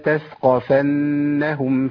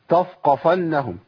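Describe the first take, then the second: First: The tha sound is light and thin. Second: The tha sound is heavy and thick. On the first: The speaker calls it right. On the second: The speaker calls it wrong.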